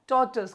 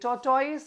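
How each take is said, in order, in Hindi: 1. अंत छोटे 'tus' जैसा उच्चारित होता है। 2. अंत 'toys' जैसा उच्चारित होता है। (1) "सिंपल है टॉर्टस" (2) "टॉर्टोइस नहीं है"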